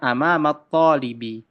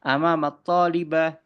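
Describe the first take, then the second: First: The last word ends with an i vowel. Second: The last word ends with an a sound. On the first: The speaker calls it right. "Bisanya amamat talibi" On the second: The speaker calls it wrong. "tidak bisa"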